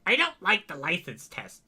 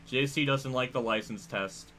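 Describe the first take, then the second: First: It is said imitating J C's voice. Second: It is said in the speaker's own voice.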